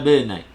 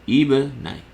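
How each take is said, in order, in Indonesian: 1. Kata ini langsung diawali dengan bunyi b. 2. Kata ini diawali dengan bunyi vokal i. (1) "hamzah wasal ini gugur. Jadi kita baca sambung" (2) "kalau kita ibtidak padanya ... maka kita akan baca ibnai"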